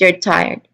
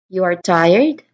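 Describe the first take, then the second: First: The voice falls at the end. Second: The voice rises at the end. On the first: It is a simple statement of fact. "So that's with a falling voice" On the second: It is a question. "your voice is going up here"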